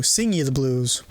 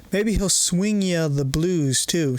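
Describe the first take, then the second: First: "sing" said with a plain s and no w; "sing" fixed from the misread "swing"; corrected word. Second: "swing" said with a clear sw at the start; "swing" misread for "sing"; misread word. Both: Acted.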